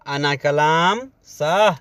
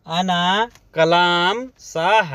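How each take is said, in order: First: Said in the usual way. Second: "अना कलाम साह" spelled out slowly, word by word; slow it down so the class can repeat "अना कलाम साह"; slow teaching take. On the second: Shown as a demonstration. Teacher repeating the phrase slowly for Hindi learners.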